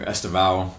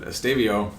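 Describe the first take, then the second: First: Estevao in another Portuguese variant; second attempt at a Portuguese Estevao; alternative Portuguese pronunciation. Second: Estevao said the Portuguese way; first attempt at a Portuguese Estevao; Portuguese pronunciation. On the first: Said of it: "We could do two Portuguese". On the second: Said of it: "I'm gonna do the Portuguese one this time". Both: Shown as a demonstration.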